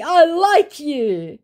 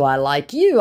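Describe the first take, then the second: First: High, slow, syrupy mock flirt; a sappy scammer voice, slowed right down. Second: Said in the usual way. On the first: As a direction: parody the scammer's fake charm. Scammer's flirty message read aloud.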